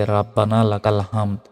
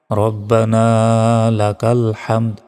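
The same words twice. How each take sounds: First: "রাব্বানা" with open first a, unstretched; wrong pronunciation. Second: "রব্বানা" rounded, long final a; correct recitation. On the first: Teacher showing a common mistake, plain mispronounced recitation. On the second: Teacher modelling the corrected phrase, measured recitation. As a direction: slowly say "হামদ" with throaty h. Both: Shown as a demonstration. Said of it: "এটা ভুল".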